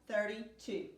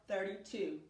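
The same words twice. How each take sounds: Both takes have the same delivery.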